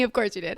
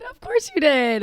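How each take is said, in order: First: Said in the usual way. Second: "you" drawn out, slow and higher; slow, sing-song "Of course you did"; stress on you. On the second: Shown as a demonstration. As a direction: lean on "you" teasingly.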